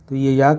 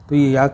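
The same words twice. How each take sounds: No difference in how they are said.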